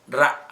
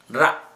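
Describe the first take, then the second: First: The R sound is said the Indian way. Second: The R sound is said the Indian way.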